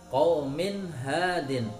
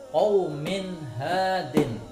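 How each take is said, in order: Both takes have the same delivery.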